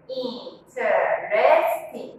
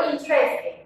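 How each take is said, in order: First: "Interesting" very slow, in four separate parts, in-te-res-ting; split into syllables. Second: Said in the usual way. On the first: Shown as a demonstration. Teacher showing four syllables, "Interesting" slowly broken into parts. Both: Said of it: "Four parts".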